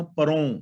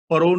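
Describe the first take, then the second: First: ਪਰੋਂ with a nasalised final "o"; correct reading of ਪਰੋਂ. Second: ਪਰੋਂ said without nasal ending, as "paro"; misreading of ਪਰੋਂ. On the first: Teacher explains it is first person, ਪਰੋਂ pronounced with nasal ending. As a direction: let ਪਰੋਂ end in the nose. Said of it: "ਪਰੋਂ ਨਹੀਂ ਪੜ੍ਹਨਾ". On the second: Teacher warns listeners how not to read it, ਪਰੋਂ mispronounced without nasal. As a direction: drop the final nasal in ਪਰੋਂ. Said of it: "ਨਹੀਂ ਪੜ੍ਹਨਾ". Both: Shown as a demonstration.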